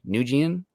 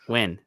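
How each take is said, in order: First: The name sounds like 'Nugent'. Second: The name sounds like 'Win'. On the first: The speaker calls it wrong. "Probably pronounced mispronounced the last name" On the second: The speaker calls it right. "There we go"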